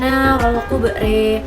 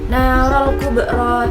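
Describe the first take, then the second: First: The final vowel is tilted toward e. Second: The final vowel is a plain open a.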